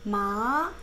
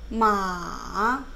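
First: The pitch rises from mid to high. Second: The pitch dips low, then rises. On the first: "마로 2성으로 연습해보면 마" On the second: "삼성은 이렇게 내려갔다가 올라간 거예요. 마로 연습하면 마"

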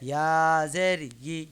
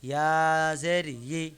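No difference in how they are said.

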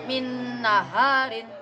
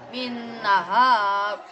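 First: The word ends with the syllable rin. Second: The word stops on the r consonant. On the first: This is the full written reading. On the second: This is the reading when pausing. "jika dibaca waqaf"

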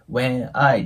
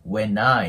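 First: The two words are said separately, not linked. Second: The n sound links straight into the next word. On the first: The speaker calls it wrong. "when I ではなく" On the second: The speaker calls it right. "N、子音で終わって次、I、母音なので"

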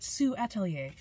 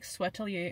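First: The name begins with the sound 'sue'. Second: The name begins with the sound 'sweat'. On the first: The speaker calls it right. "That's probably it, Sue Atelier. That makes more sense" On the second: The speaker calls it wrong. "I don't know if I'm pronouncing that right"

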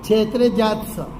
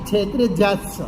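Both takes have the same delivery.

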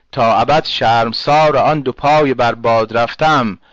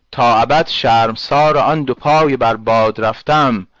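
No difference in how they are said.

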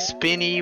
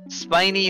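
First: The first vowel is short, as in spin. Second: The first vowel is long, as in spine. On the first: The name comes from their spinning. "They don't spin. Actually, they kind of spin" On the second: The name comes from their spines. "spinies is the correct pronunciation because that makes sense because they have spines"

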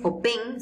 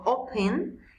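First: The stress is on the second syllable. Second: The stress is on the first syllable. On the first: The speaker calls it wrong. "no es open" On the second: The speaker calls it right. "la mayor fuerza de voz no está en el final"

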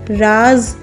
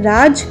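First: The word begins with a z sound. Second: The word begins with a j sound. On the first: A hidden secret. "राज कोई छुपी हुई बात" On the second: To rule somewhere. "राज कहीं पर राज्य करना"

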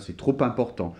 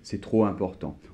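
First: A p sound links trop to important. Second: No p sound between trop and important. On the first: It sounds formal and well-spoken. "les gens qui parlent bien comme ça" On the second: It is the usual everyday way. "souvent on dit"

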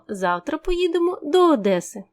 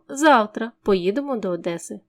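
First: The emphasis falls on the word Одеси. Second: The emphasis falls on the word завтра. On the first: It answers where the trip goes. "куди ми поїдемо завтра" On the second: It answers when the trip happens. "Відповідаючи на питання «коли поїдемо до Одеси?»"

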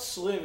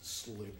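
First: The final m sound is short. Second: The final m sound is drawn out. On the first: The speaker calls it wrong. "It's not slim" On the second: The speaker calls it right. "But like with two M's"

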